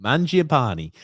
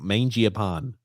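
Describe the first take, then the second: First: Mangiapane as MAHN-jee-a-PAH-nee; corrected pronunciation. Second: Mangiapane as MAIN-jee-a-pan; mistaken pronunciation. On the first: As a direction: say Mangiapane with an AH first and a final "nee". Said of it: "how do I pronounce this name". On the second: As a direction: say Mangiapane with "main" first and no final "ee". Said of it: "I was about to call him". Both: Shown as a demonstration.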